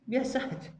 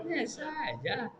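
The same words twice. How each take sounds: First: Higher, rising and offhand; quick mock brush-off. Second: Higher, slow and soft, dismissive; mocking drawled brush-off. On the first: Preacher repeats the careless man's shrug, brisker. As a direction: toss it off lightly. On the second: Preacher mocks a careless man, slow and dismissive. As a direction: drag it out like it's nothing.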